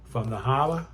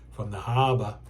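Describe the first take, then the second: First: It is said in a Boston accent, dropping r. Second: It is said in a general American accent.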